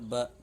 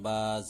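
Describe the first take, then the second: First: The vowel is short and quick. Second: The vowel is drawn out long. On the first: The speaker calls it right. "बल्कि बा ज़बर ब" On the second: The speaker calls it wrong. "बा ज़बर बा नहीं"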